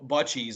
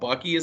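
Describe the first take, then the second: First: The middle consonant is a soft 'ch' sound. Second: The middle consonant is a hard 'k' sound. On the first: The speaker calls it wrong. "I was gonna pronounce it bu- Butchies" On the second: The speaker calls it right. "It's a hard C"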